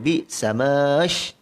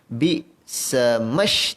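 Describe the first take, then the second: First: The 'ma' vowel is lengthened before the next sound. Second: The 'ma' vowel is short and runs straight on. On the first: The speaker calls it wrong. "Kalau baca bi samash salah" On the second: The speaker calls it right. "baca yang betul bi samash terus masuk"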